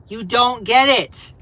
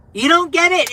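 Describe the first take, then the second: First: Said in the usual way. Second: "You don't get it" higher and louder; exasperated. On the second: Real, not acted. Streamer venting at critics, louder and higher. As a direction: burst out in frustration.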